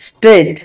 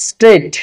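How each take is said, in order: No difference in how they are said.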